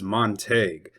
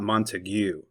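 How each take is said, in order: First: It is pronounced the local Texas way. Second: It is pronounced a non-local way. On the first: This is how people in the county say it. The speaker calls it right. "the correct Texas pronunciation is Montague" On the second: This is not how people in the county say it. The speaker calls it wrong. "not Montague"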